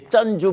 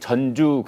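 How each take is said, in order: First: The first consonant is tense and hard. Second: The first consonant is plain and soft. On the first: It is the way many people commonly say it. "쩐주 뭐 이렇게들 발음 많이 했죠" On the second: It sounds like the name of a city. "전주 그러면 대개 그 우리 전라북도의 도청 소재지를 떠올리시는 분들이 많은데"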